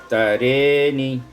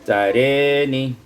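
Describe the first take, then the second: The two takes are said the same way.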